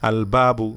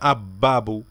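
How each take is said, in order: First: The l is clearly sounded before the b. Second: The l merges into a doubled b sound. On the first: The speaker calls it right. "এখানে আলিফটু লামটা উচ্চারিত হবে" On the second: The speaker calls it wrong. "এখানে আমরা বলি না"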